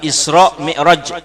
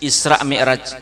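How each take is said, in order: First: It is pronounced with Arabic sounds. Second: It is pronounced with Indonesian sounds. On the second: "Mun bahasa Indonesianya"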